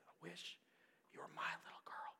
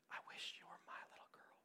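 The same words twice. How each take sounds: First: Soft unvoiced whisper, a touch quicker. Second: Tender unvoiced whisper. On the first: Teacher repeating her words to the girl, soft whisper. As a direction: hush it, barely breathing the words. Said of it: "she just said it again". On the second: Teacher whispering to a deaf student, tender whisper. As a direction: breathe it softly, like a secret. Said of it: "Miss Leonard said in her whisper".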